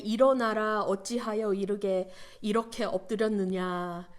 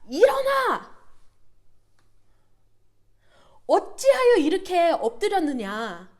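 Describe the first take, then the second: First: It is said calmly and gently. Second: It is shouted loudly and forcefully.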